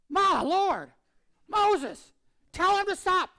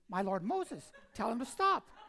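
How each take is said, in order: First: There is a dramatic pause after 'My Lord'. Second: 'My Lord Moses' runs together without a pause.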